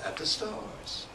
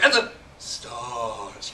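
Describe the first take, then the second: First: A quick "at the", then a slightly slower "stars". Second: The fast-slow contrast is heavily overdone. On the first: The speaker calls it right. "At the, ... I say really fast. And then stars, I say slow" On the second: The speaker calls it wrong. "It would be too much"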